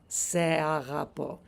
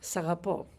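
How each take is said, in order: First: The 'se' is said as a separate syllable. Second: The 'se' is merged into the following word. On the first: "it's not wrong to say se agapo" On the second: "sagapo just flows"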